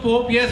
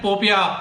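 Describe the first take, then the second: First: The name ends in a 'yes' sound. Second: The name ends in an 'ia' sound. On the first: This follows from splitting the spelling into parts. The speaker calls it right. "तो पोप यस होता है।" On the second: This is how someone else keeps saying it. The speaker calls it wrong. "उसको वरुण बार बार बोल रहे हैं"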